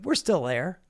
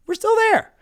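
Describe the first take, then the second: First: Said in the usual way. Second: "there" yelled much higher and louder in disbelief; high mocking shout. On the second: Shown as a demonstration.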